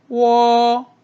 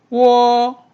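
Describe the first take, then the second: The two takes are said the same way.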